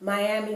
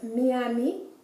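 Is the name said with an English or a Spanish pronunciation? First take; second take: English; Spanish. First: It is said with English vowel sounds. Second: It is said with Spanish vowel sounds. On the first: "in English we pronounce Miami" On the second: "The I would be pronounced like the E"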